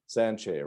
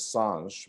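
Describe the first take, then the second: First: The name ends with a vowel sound. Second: The name ends with a consonant sound. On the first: This is how the family says the name. "I say Sanche" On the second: This is how an outsider has been saying the name. "for years, I pronounced your last name as Sanj"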